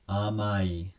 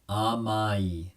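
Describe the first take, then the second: Both takes have the same delivery.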